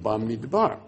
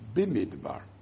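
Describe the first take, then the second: First: The first vowel is an a sound. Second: The first vowel is an i sound. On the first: The word is read on its own, out of its context. "it would have said Bamidbar" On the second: The word is read joined to the next word, Sinai. "It's Bimidbar. But Bimidbar is Somoch, Bimidbar Sinai"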